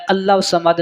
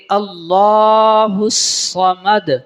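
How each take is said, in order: First: First "اللہ الصمد" quick, lā cut short; wrong short reading. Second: Second "اللہ الصمد" slow, lā held long; correct long reading. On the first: Teacher shows what not to do, short "اللہ الصمد". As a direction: hurry "اللہ الصمد" as allau-samad. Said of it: "نہیں بلکہ". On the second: Teacher corrects it, drawn-out "اللہ الصمد". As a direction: stretch "اللہ" in a chant before "الصمد". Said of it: "اس کو لمبا کرنا ہے". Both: Shown as a demonstration.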